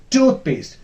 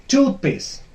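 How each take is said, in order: Both takes have the same delivery.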